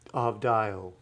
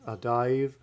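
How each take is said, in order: First: The word ends with a u sound. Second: The word ends with a v sound. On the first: This is how it was said in biblical times. "in biblical Hebrew this was pronounced avdio" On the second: This is how most readers say it today. "readers today would pronounce this with the V sound"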